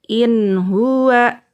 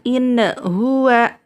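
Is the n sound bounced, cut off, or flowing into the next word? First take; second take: flowing; bounced. First: The n sound flows smoothly into the next word. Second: The n sound is bounced with a little echo. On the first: The speaker calls it right. "dibaca lanjut aja" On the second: The speaker calls it wrong. "nunnya tidak boleh dipantulkan"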